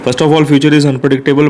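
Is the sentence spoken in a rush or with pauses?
rushed. It is rushed out quickly without pauses. The speaker calls it wrong. "ये तो भाई ऐसे लगा लो किसने नाइट्रो छोड़ रखे हैं"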